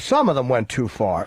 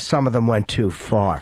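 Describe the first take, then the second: First: It is said lightly and casually. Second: It is said flatly and sternly. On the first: The remark is a mild, offhand comment. "well, you know" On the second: The remark sounds like a serious complaint. "yet that comes off as"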